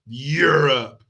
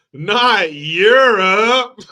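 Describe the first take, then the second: First: Said in the usual way. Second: "Europe" stretched slow in a fake terrified wail; drawn-out whimpering "not Europe"; mock fear. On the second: Mock fearful take of Europe.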